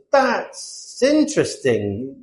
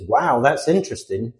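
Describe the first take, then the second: First: Very slow, drawn-out "that's interesting"; questioning British politeness. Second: Sincere, straightforward "wow" of interest; mean it, without drawing it out; genuine interest. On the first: British person questioning someone's choices, slow sceptical politeness. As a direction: stretch it out to imply doubt. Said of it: "So if a British person says". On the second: American who genuinely finds it interesting, sincerely interested. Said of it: "they genuinely find it interesting". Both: Acted.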